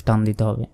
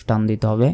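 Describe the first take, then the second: No difference in how they are said.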